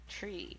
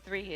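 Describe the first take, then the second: First: The word begins with a t sound. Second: The word begins with a th sound. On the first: "it's tree" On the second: "instead of three"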